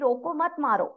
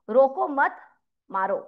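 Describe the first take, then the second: First: There is a pause after roko. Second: There is a pause after mat.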